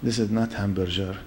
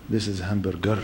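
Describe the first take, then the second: First: "hamburger" said with a soft G, ham-bur-jer; mispronounced hamburger. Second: "hamburger" with a hard G, ham-bur-ger; low, quiet "hamburger", the G hard; corrected pronunciation. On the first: Waitress correcting the newcomer, quietly saying "hamburger" as ham-bur-jer. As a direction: quote back "hamburger" with a J sound, quietly. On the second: Waitress correcting the newcomer, low "hamburger" with a hard G. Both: Retold or imitated.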